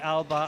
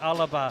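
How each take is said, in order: First: It has two syllables, with no vowel between L and B. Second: It has three syllables, with a vowel between L and B. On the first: The speaker calls it right. "I've got to be careful when I say Alba" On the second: The speaker calls it wrong. "I don't say Alaba, because the Scottish version ... has a hidden A"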